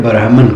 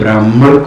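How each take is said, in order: First: It is said with an Arabic-Persian pronunciation. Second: It is said with a native Hindi pronunciation.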